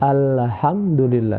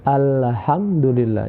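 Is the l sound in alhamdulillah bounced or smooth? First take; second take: bounced; bounced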